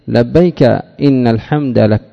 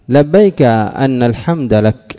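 First: The word after labbayk begins with i. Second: The word after labbayk begins with a. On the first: It gives the reason as a new sentence. "جاز كسر الهمزة فيكون تعليلا بجملة" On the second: It gives the reason with an implied 'because of'. "لبيك لأن الحمد لك على تقدير لام محذوفة"

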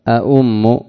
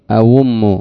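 First: Both glottal stops are clearly pronounced. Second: The second glottal stop becomes a long u vowel. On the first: "تحقيق المخرج عند النطق بالهمزة" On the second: "فتقول على الإبدال"

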